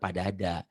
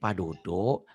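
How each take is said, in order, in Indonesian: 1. Vokal belakangnya terdengar seperti bunyi 'a'. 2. Vokal belakangnya terdengar seperti bunyi 'o'.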